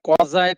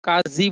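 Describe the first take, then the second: First: It has an au vowel, a z sound, and ends in eye. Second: It has a long a, a z sound, and ends in ee. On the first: "कौजाई कहता है" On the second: "कोई काजी बोलता है"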